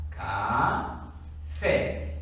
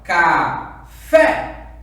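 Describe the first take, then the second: First: CA drawn out and rising, then FÉ apart; split into syllables. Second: CA, then a loud punched FÉ; calling the word. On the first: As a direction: sound out "Café" slowly, syllable by syllable. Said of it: "eu vou separar". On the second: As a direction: call out "Café" in two beats, hitting FÉ. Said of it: "Mesma coisa do café". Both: Shown as a demonstration.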